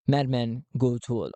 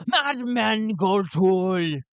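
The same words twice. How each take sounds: First: Said in the usual way. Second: MADMAN stretched slow and loud; madman shouting his name. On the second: Acted. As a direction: bellow "Madman Gotul" slowly with MADMAN hit hard.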